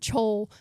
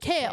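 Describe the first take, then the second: First: The name is said with a 'ch' and 'ol' sound. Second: The name is said with a 'k' and 'ale' sound. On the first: The speaker calls it wrong. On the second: The speaker calls it right. "I learned how to pronounce it, and I was like, oh, it's like kale"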